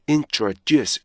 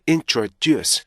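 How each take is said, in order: Both takes have the same delivery.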